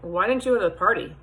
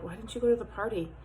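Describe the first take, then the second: First: It sounds accusing, with attitude. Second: It sounds worried and caring.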